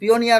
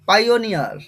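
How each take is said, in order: First: The first syllable sounds like 'pee'. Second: The first syllable sounds like 'pie'. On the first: The speaker calls it wrong. "পিওনিয়ার হবে না" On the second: The speaker calls it right. "প্রথমে পাই"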